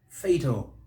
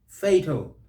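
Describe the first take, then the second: First: The stress is on the first syllable. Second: The same.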